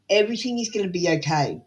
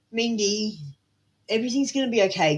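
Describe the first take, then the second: First: Said in the usual way. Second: Reassuring. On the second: Shown as a demonstration. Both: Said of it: "Can you just tell yourself that right now?".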